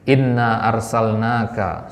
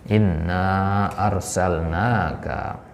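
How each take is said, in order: First: The final vowel of inna is short. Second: The final vowel of inna is long. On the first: The word for 'we' is lost from the meaning. The speaker calls it wrong. "jangan sampai kita baca pendek di situ ... salah" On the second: It means 'indeed we'. The speaker calls it right. "Harus dibaca panjang ... Yang benar adalah inna"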